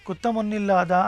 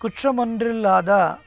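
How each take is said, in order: First: The clusters are softened to tt and nn. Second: The word keeps hard tr and nr clusters. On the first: This is the gentle form used in recitation. "కానీ మనం కుత్తమొన్నిల్లాదా అని చదువుతున్నాం" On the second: This is the form as written in the verse. "ఈ పాసురంలో కుట్రమొన్రిల్లాదా అని ఉంది"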